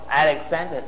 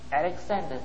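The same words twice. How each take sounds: First: The name is said loudly. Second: The name is said at moderate volume. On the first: "he said louder" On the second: "he said a little louder"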